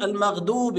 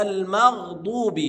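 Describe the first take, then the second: First: المغضوب with the dad said as D, المغدوب; wrong dal for dad. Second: المغضوب slow, with a full emphatic dad; proper dad. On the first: Teacher imitating the dal mistake. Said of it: "الضاد دال". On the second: Teacher giving the corrected reading. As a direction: lean into the dad. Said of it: "لا، ما ينفعش". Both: Shown as a demonstration.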